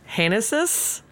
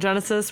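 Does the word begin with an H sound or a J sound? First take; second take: H sound; J sound. First: The word begins with an H sound. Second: The word begins with a J sound. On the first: It is said the Spanish way. "if you were a Spanish speaker, it would be Like Hanesis, because oh, G would be an H" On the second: It is said the English way. "fine with us calling it Genesis"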